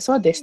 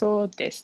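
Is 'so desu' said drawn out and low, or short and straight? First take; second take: short; drawn out. First: It is said short, quick and level. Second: It is said low and drawn out. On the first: The speaker agrees: that's right. "short and macam you know straight" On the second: The speaker is still thinking it over. "low and then you know a bit long"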